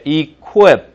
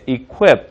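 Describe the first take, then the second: First: "equip" said slowly and louder with a kwi sound. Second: Said in the usual way. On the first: Shown as a demonstration. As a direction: glide "equip" through a single kwi. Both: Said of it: "qui라고 하지 말고 쿠이처럼".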